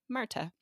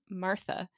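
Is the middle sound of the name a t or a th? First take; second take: t; th. First: The middle sound is a plain t. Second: The middle sound is a th. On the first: "she became Marta" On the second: "they also didn't have a th sound"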